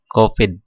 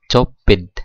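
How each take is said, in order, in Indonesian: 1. Kata ini diawali dengan bunyi k. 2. Kata ini diawali dengan bunyi ch. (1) "Yang kita baca adalah Kopid" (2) "Kan kita nggak baca Copid"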